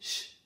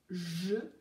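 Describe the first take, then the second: First: It is reduced to a short voiceless sh sound. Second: It is a full syllable with a voiced zh sound. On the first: This is how it sounds in casual speech. "mais ch" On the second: This is the careful pronunciation. "on ne prononce pas bien je"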